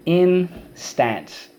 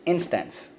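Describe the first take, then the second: First: "Instance" split slowly in two, full "stance", high pitch; syllable by syllable. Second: Said in the usual way. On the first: Shown as a demonstration. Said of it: "First syllable".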